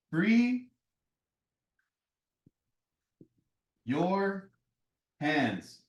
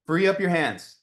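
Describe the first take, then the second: First: "free" ... "your" ... "hands" spoken as three separate beats with long pauses between them; slow dramatic pauses. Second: Said in the usual way. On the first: Shown as a demonstration. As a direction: let "free" rise high, then drop away through "your" and "hands".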